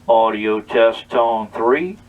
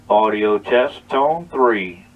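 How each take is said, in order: The two takes are said the same way.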